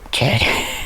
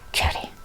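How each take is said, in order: First: The name is said slowly. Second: The name is said quickly.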